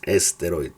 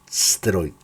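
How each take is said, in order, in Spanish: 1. Una vocal e extra va antes de la s. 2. La palabra empieza directamente con el sonido s. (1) "en español decimos es" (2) "la S"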